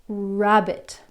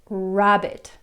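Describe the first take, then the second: Both takes have the same delivery.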